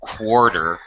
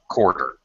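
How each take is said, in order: First: It starts with a K followed by a W sound. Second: It starts with a K and no W sound. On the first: "you can say it with the K and W" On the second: "most English speakers reduce pronunciation, and we just say like quarter"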